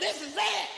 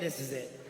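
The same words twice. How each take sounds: First: It is said in a happy, celebratory tone. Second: It is said in a grim, fed-up tone. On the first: Something good is about to happen. "in a celebratory fashion" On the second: Patience has run out and trouble is coming. "we say it like this"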